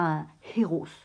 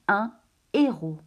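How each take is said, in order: First: Héros is said with an extra H or S sound. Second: Héros is said with no H or S sound. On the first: The speaker calls it wrong. "On ne dit pas un héros" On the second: The speaker calls it right. "je prononce un héros. On ne prononce ni le H, ni le S"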